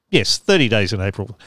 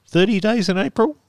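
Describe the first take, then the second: First: Said in the usual way. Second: Thirty days in April as a rising question; asking. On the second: Shown as a demonstration. Host unsure of the date, asking himself. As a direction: check the date aloud, lifting April.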